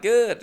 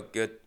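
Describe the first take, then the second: First: High, loud, perky answer; over-keen, chipper one-word answer; eager reply. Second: Short, softer answer; uninterested passenger's mumbled reply; curt reply. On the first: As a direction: pounce on the chance to chat. Driver's eager reply, acted. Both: Retold or imitated.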